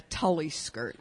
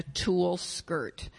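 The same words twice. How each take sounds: First: "Tully" rhyming with sully, for tulle; mispronounced tulle. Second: Said in the usual way. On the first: Shown as a demonstration. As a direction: say "Tully" as two syllables, TULL-ee. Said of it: "in years past, I would have said". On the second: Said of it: "I know how to pronounce those words".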